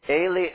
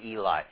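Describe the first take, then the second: First: It is pronounced the Hebrew way. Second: It is pronounced the anglicized way. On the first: The speaker calls it right. "that's how you say it" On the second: The speaker calls it wrong. "I know in English it looks like"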